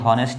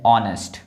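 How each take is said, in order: First: The word begins with an h sound. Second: The word begins directly with a vowel. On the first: The speaker calls it wrong. "ये हॉनेस्ट नहीं है" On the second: The speaker calls it right. "ये है ऑनेस्ट"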